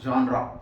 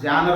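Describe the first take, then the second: First: The word ends in a 'ruh' sound. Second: The word ends in an 'er' sound. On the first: The speaker calls it right. "It should be pronounced as జాన్రా" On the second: The speaker calls it wrong. "జానర్ అంటుంటారు"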